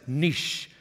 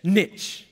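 First: Niche said as "neesh", rhyming with quiche; British niche. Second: Niche said as "nitch", like itch with an N; American niche. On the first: Speaker shows how he says niche back home, as "neesh". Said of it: "I can say it like this". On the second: Speaker asks how Americans say Niche, "nitch". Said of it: "How do you say that word?". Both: Shown as a demonstration.

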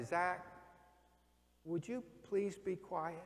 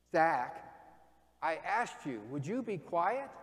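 First: Soft, slow, polite asking; polite request. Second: Firmer, pointed repeat of the request. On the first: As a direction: ask nicely, holding back. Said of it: "I'm gonna ask you nicely". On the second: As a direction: press him now, no longer asking gently. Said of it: "I'm gonna walk closer to you". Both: Retold or imitated.

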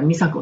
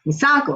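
First: Said in the usual way. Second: "美佐子" in an American accent, stress on "佐" and pitched up; American-style "美佐子" with a strong high stress on the middle syllable. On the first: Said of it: "普通だったら". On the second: Shown as a demonstration. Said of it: "でもアメリカ人".

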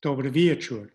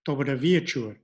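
First: Dobry wieczór repeated, stress on WIE of wieczór; second model take; Polish pronunciation. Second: Dobry wieczór with stress on WIE of wieczór; first model take; Polish pronunciation. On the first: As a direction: say Dobry wieczór again for learners. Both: Shown as a demonstration. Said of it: "penultimate syllable".

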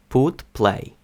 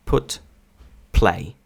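First: Ukrainian-accented put, play; unaspirated Ukrainian P. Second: English-style airy p in put, play; strong aspiration on P. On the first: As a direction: put and play with no puff after p. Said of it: "українці вимовляють як П". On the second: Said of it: "наскільки сильний йде придих перед звуком". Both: Shown as a demonstration.

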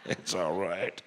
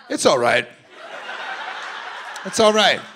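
First: Much lower and softer mumble; lightly voiced mumbling dad; mumbled dad. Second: Dad soothing. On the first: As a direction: murmur it under your breath. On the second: Retold or imitated. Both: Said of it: "this guy in the middle is like".

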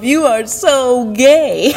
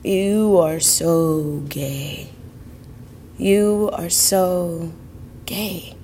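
First: Slow, teasing self-jab, half laughing; joking tease. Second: Slow, soft inner echo, fading out; echoing thought. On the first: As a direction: tease yourself playfully, stretching it out. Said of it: "jokingly said to myself". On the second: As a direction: let it drift like a thought in your head. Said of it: "kept repeating in my head". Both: Retold or imitated.

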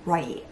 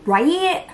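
First: Lower, quiet Right. settling down; Right. said flat and final, falling; falling statement. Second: Loud, high asking Right?; Right? pushed up at the end like a question; rising question. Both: Shown as a demonstration.

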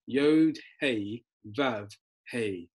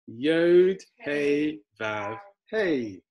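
First: Said in the usual way. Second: Drawn-out letter names, starting loud; say-along recitation. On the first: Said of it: "those are the letters in Hebrew". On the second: Shown as a demonstration. Teacher leads learners saying it together, slow recitation. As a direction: lead a group through each word slowly. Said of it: "Should we say it together?".

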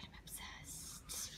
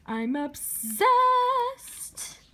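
First: Slow, hushed, breath-only whisper; awed whisper. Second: High, loud, very drawn-out squeal; excited squeal. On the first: Collector awed by the book, slow whisper. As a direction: whisper it as if overwhelmed. Awed, then repeats it squealing. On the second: Collector bursting over the book, excited squeal. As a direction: squeal it, stretching the last word. Same words, now squealed. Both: Real, not acted.

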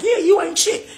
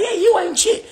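First: Mocking high voice. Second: Squeaky high taunt, stress on you; mocking high voice. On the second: Vlogger mimicking feuding insiders, in a squeaky high taunt. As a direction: pipe it up high and snotty, hitting "you". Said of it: "others like".

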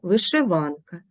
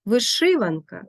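First: Вишиванка as вишиВАНка; stress on ВАН. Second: Вишиванка as виШИванка; stress on second syllable. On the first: Teacher showing double stress, вишиванка stressed on ВАН. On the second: Teacher showing double stress, вишиванка stressed on ШИ. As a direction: hit ШИ in вишиванка. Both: Shown as a demonstration. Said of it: "мають подвійний наголос".

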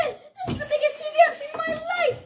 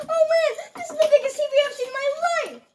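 First: High crying-out amazement; excited shout. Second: Fast laughing delivery. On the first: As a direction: shout it like you're overwhelmed. Retake with big excitement. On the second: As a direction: laugh through the line. First take, laughing fast. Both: Acted.

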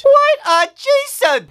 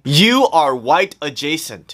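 First: High, slow horrified wail; horrified outcry. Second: Said in the usual way. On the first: Acted. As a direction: wail it in horror.

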